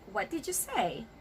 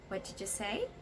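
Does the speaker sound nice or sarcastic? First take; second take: sarcastic; nice. First: The question sounds sarcastic and confrontational. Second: The question sounds nice and polite. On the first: The speaker is trying to pick a fight. The speaker calls it wrong. "It would actually sound sarcastic" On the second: The speaker genuinely did not understand. The speaker calls it right. "you have to say it very nicely"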